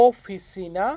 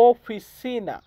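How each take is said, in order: Both takes have the same delivery.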